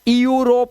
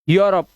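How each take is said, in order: First: A separate e sound comes before the word. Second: The word begins directly with a yoo sound. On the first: The speaker calls it wrong. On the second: The speaker calls it right.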